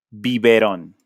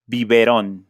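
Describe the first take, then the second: No difference in how they are said.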